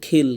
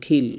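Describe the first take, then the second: Both takes have the same delivery.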